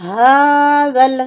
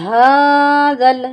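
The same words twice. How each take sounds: Both takes have the same delivery.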